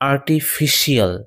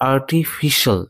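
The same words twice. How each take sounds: First: The ending is said as 'shiyal'. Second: The ending is said as 'shul'. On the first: The speaker calls it wrong. "এইভাবে উচ্চারণ করলে উচ্চারণটি ভুল হবে" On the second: The speaker calls it right. "শল, not শিয়াল"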